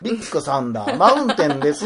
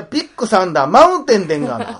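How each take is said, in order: First: Mock standard-Japanese staff voice; Kanto dialect. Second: Loud, high, hammed-up Kansai accent; Kansai dialect. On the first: Teasing her about work speech, mock Kanto accent. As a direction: say it in polite Tokyo intonation. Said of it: "関東弁で仕事中は喋っててん". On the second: Answering her jibe with a hammed-up Kansai version. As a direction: belt it out in broad Kansai. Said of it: "お前関西人殺されんぞ".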